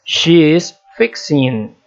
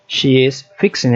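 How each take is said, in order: First: Slow, careful classroom model of "She is fixing", every word laid out; teacher modelling "She is fixing" slowly; slow model sentence. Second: Said in the usual way. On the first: Shown as a demonstration. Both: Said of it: "acrescenta-se somente I N G".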